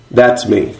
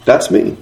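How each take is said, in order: First: Said in the usual way. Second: Whispered, almost no voice. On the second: Shown as a demonstration. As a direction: breathe it out as a private confession. Written note read aloud twice.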